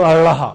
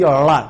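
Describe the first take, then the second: First: "अड़हा" with an h breathed after the flap; aspirated flap demo. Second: "अड़ा" with the tongue flapped back, no aspiration; retroflex flap demo. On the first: Teacher giving the other Vedic letter, aspirated "अड़हा". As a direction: add an audible h to the flap in "अड़हा". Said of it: "या इसको कहो". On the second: Teacher showing how to pronounce the Vedic letter, unaspirated "अड़ा". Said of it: "इसको उच्चारण करने की विधि". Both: Shown as a demonstration.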